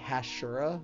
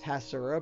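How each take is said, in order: First: The middle consonant is an sh sound. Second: The middle consonant is a plain s sound. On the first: The speaker calls it wrong. "but I say Hashura" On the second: The speaker calls it right. "It's just Hasura"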